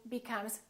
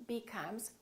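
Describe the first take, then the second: No difference in how they are said.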